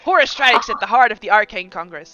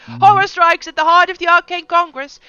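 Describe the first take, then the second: First: It is read in an ordinary speaking voice. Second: It is read in a loud, proclaiming crier voice.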